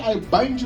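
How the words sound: It is said in a light, unserious way.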